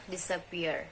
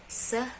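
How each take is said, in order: First: Said in the usual way. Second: Disappear said again higher, syllables carefully marked; stress demo. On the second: Shown as a demonstration. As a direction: Disappear set out as a teacher's stress model. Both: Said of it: "For example".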